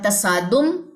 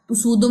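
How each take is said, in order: First: The first vowel is an open 'a' sound. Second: The first vowel is a rounded 'u' sound. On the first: The speaker calls it right. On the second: The speaker calls it wrong.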